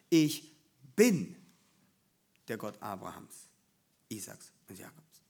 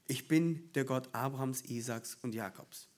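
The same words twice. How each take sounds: First: The word 'bin' carries strong stress. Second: The word 'bin' carries no special stress.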